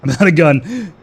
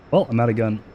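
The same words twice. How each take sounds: First: Laughing loudly through the line. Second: Said in the usual way. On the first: Real, not acted. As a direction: laugh it out in disbelief. Laughs, runs out of ammo.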